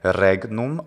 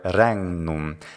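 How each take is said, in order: First: The gn is said as plain gn. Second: The gn is said as ngn. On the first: "the G N is either gna" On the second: "or ngna, like hangnail"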